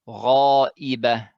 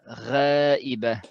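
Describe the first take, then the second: First: The long 'a' is heavy and emphatic. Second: The long 'a' is light and thin. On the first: The speaker calls it right. "it should be غا" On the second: The speaker calls it wrong. "you shouldn't say uh"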